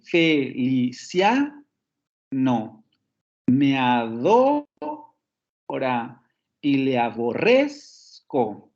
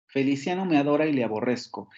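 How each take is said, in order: First: "Felicia, no. Me adora y le aborrezco" very slow, rising on CIA, DO, RREZ; drawn-out metrical demo, "fe-li-CIA, a-DO-ra, a-bo-RREZ-co"; stressed syllables marked. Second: Said in the usual way. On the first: Shown as a demonstration. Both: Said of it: "Lo vuelvo a repetir".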